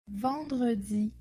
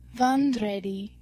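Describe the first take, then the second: First: Said in the usual way. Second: "vendredi" said like "von-dray-day"; demonstrated pronunciation. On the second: Shown as a demonstration. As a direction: say "vendredi" with "ay" in the last two syllables. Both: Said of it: "This is pronounced".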